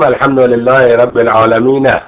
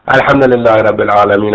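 First: The last word ends with its final vowel sounded. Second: The last word ends without its final vowel. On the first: "وقف به حرکت" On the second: "وقف به سکون"

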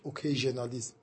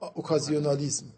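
First: The word is said with an English pronunciation. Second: The word is said with a French pronunciation. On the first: "انگلیسیش اوکیژنالیسم" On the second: "انگلیسی اون فرانسویه، تلفظ فرانسوی"

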